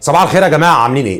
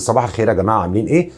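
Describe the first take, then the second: First: It is said too loudly, sounding angry. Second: It is said in a weak, quiet voice.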